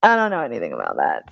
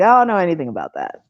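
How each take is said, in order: First: Low, soft, quick dumb mumble; playing dumb. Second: Quick airheaded denial; playing dumb. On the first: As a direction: sink the voice low and small. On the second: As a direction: rattle it off like a ditz. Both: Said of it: "play dumb and be like".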